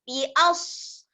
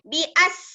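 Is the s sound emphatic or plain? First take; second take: emphatic; plain. First: The s is heavy, with a raised tongue. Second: The s is light, with a flat tongue. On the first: The speaker calls it right. "Kembungkan lidah" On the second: The speaker calls it wrong. "Kalau sin, ... Lidah lurus"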